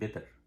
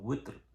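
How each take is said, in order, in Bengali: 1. শব্দটি B উচ্চারণ দিয়ে শুরু হয়। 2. শব্দটি W উচ্চারণ দিয়ে শুরু হয়। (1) "আমরা পড়ি বেতের, পুরোটাই বা" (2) "যেরকম বেতের হবে আছে উইত্র"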